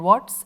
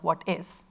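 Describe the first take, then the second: First: It is said as one contracted word. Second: It is said as two full words. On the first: "contracted forms" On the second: "instead of"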